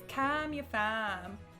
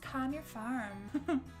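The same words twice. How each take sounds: First: It is said in an Australian accent. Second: It is said in an American accent. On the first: "So anyway, it's" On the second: "What American would that work?"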